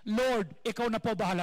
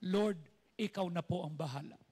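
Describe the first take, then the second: First: Louder, fuller call of the prayer. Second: Prayer demo. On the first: Pastor modelling the prayer line for congregation, louder proclaiming. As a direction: proclaim it for all to repeat. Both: Shown as a demonstration. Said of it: "Can you say that?".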